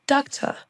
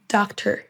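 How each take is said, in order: First: British accent. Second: American accent. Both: Shown as a demonstration. Drill alternates American and British.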